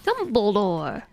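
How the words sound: It imitates the voice from an old YouTube video.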